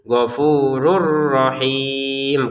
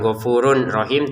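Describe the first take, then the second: First: The n sound merges into the r. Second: The n sound is kept before rahim. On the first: The speaker calls it right. "tapi ghafurur rahim karena tanwinnya ... kita masukin ke huruf ro" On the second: The speaker calls it wrong. "cara bacanya bukan ghafurun rahim"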